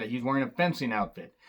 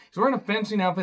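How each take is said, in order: First: Said in the usual way. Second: Faster, "fencing outfit" pushed up in disbelief; exasperated "He's wearing a fencing outfit"; disbelieving repeat. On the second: Real, not acted. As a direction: repeat it like you can't believe it.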